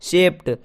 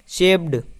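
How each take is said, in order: First: The word ends with a t sound. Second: The word ends with a d sound. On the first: The speaker calls it right. "डी को ट पढ़ेंगे" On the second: The speaker calls it wrong. "कुछ लोग इसे शेप्ड पढ़ते हैं"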